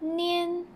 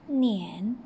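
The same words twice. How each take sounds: First: The pitch stays high and level. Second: The pitch dips low, then rises.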